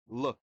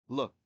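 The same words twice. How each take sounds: No difference in how they are said.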